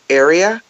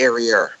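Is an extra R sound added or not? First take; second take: not added; added. First: It is said without an added R sound. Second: An extra R sound is added, Boston style.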